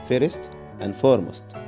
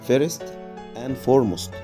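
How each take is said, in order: The two takes are said the same way.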